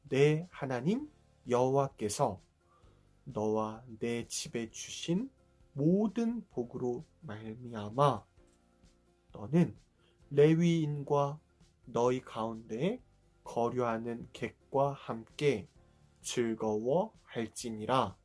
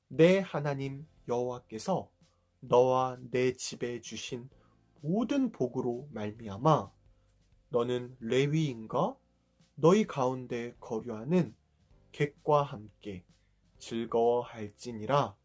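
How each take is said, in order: First: It is read at a slow pace. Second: It is read at a fast pace.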